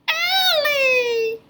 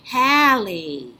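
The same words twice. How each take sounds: First: High puppet Allie with no k; squeaky Allie missing the k; first sound dropped. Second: Said in the usual way. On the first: Pretend. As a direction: say Callie as Allie, leaving off the k. Puppet drops K. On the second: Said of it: "Let's try Callie".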